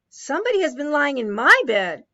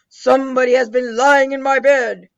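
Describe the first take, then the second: First: It is said in a medium-sized voice. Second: It is said in a deep, big voice.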